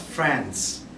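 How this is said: It is said with an American accent. "the American pronounce it as France"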